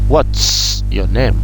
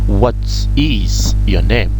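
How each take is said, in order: First: The word 'is' is contracted onto 'what'. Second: The word 'is' is said in full.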